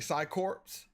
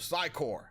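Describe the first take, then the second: First: The final 'ps' sound is pronounced. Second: The final 'ps' sound is silent. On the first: The speaker calls it wrong. "I used to say Psycorps" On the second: The speaker calls it right. "but the P S is silent"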